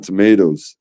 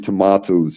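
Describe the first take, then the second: First: It is said with an American pronunciation. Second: It is said with a British pronunciation. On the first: This is the speaker's natural way. The speaker calls it right. "I just stay with my tomatoes" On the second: This is borrowed from someone else's speech. The speaker calls it wrong. "it sounds fake to me if I say it"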